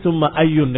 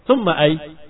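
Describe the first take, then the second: First: The last word ends with an added n sound. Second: The last word ends without any final vowel. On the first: The word stands alone, not in a possessive construction. "dengan tanwin" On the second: The case ending is left out altogether. "kamu sukunkan selamat"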